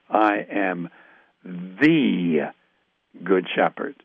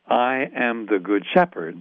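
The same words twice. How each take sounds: First: The stress is on "the". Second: It is read plainly, with no special stress.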